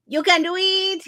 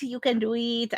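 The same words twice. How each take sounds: First: High, loud cheer. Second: Said in the usual way. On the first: Acted. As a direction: pump them up with a loud cheer. Cheering on a viewer.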